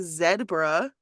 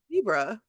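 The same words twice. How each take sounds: First: The first syllable sounds like 'zed'. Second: The first syllable sounds like 'zee'. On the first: The speaker calls it wrong. "you don't say zebra" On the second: The speaker calls it right. "you say zebra"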